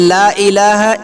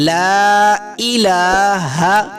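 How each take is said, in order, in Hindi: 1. 'la' में स्वर छोटा है। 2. 'la' में स्वर लंबा खींचकर बोला जाता है। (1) "ना ला को लंबा करके पढ़ते हैं, खींच कर नहीं पढ़ते" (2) "ला को थोड़ा सा खींचना है"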